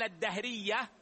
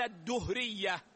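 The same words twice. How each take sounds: First: الدهرية pronounced "ad-dahriyya", with an a vowel; ad-DAH-riyya for الدهرية; fatha on the dal. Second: الدهرية pronounced "ad-duhriyya", with a u vowel; ad-DUH-riyya for الدهرية; damma on the dal. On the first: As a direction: double the d of الدهرية and follow it with "a". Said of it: "بالتشديد والفتح على الدال". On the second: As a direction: double the d of الدهرية and follow it with "u". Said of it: "بالتشديد والضم". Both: Shown as a demonstration.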